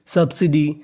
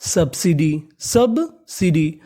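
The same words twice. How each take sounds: First: Said in the usual way. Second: subsidy very slow, split after the first syllable; slow, stretched teaching pronunciation of subsidy; broken into parts. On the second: Shown as a demonstration. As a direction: sound out subsidy in pieces. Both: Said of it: "तो meaning बनी".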